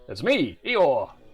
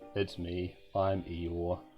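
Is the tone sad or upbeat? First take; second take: upbeat; sad. First: It is said in a cheerful, upbeat voice. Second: It is said in a sad, downbeat voice.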